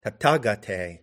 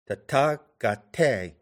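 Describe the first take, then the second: First: Said in the usual way. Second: "Tathagate" slowly split into two iambs, TA and TE stressed; very slow, scanned "Tathagate" with the second of each pair stressed; iambic stress. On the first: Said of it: "that is two iambs". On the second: Shown as a demonstration. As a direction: beat out "Tathagate" as ta-THA, ga-TE. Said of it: "that is two iambs, clustered".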